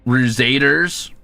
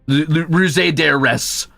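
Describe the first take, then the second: First: It ends in a plain S with no extra vowel. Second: An extra vowel is sounded before the final S. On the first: This is the modern way to say it. "I just put an S" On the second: This is how it might have been said in Old English. "they might have added an E S and pronounced the E"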